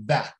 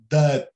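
First: That with a wide front A, between A and E; wide open A. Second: That wrongly said like DUT; closed A. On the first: Teacher correcting the closed version, That with very open A. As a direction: open the vowel in That right up. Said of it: "este A é bem aberto". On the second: Teacher showing what he would never say, that with closed A. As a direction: say that with a short, closed vowel, as in dut. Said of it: "com um Azinho mais fechado". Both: Shown as a demonstration.

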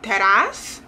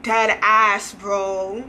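First: "Dead ass" rising sharply at the end; questioning. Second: "Dead ass" level, with no questioning rise; emphatic confirmation. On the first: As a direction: ask "Dead ass" as a doubting "really?". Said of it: "Which is, like, a question". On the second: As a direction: confirm firmly with "Dead ass", then drop on "bro". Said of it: "no exaggerations". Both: Shown as a demonstration.

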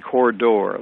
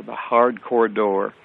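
First: Said in the usual way. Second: "hard" leaned on, slower; self-correction stressing hard. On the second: Real, not acted.

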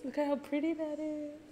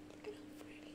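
First: Said in the usual way. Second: Breathless whisper, no voice. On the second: Real, not acted. Fan whispering in awe at the video.

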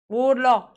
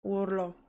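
First: A loud yell of "Urlo!"; shouting. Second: Said in the usual way. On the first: Real, not acted.

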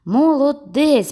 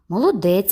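First: Higher, louder, slow praise; emphatic praise. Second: Said in the usual way. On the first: A narrator's reading. Judge repeats his praise to the boy, louder. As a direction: say it again with real weight.

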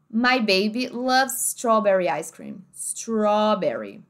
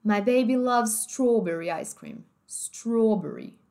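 First: Slow "strawberry" with an open aw; American open vowel. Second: Slow "strawberry" with rounded closed oh; British closed vowel. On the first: Teacher demonstrating American, slow open-vowel "strawberry". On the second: Teacher demonstrating British, slow closed-O "strawberry". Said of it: "Agora, britânico". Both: Shown as a demonstration.

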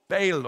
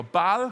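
First: Baal said as "bale"; first pronunciation. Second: Baal with an open a, one syllable; alternative pronunciation. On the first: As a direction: say "Baal" to rhyme with pale. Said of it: "How do you say it?". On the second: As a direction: say "Baal" as "bahl". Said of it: "apparently that's how you say it". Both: Shown as a demonstration.

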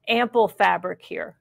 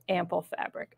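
First: Said in the usual way. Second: "ample fabric" repeated much softer, said lower. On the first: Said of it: "am-, ample fabric". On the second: Shown as a demonstration. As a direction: drop the voice and say "ample fabric" again softly.

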